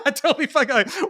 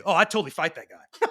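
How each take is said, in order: First: Much higher, laughing mock repeat of the tough-guy line; mocking echo. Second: Said in the usual way. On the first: Mocking the dads' boast from anger management group, high and laughing. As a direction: tease the brag back in a high voice. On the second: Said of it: "And every one of them say".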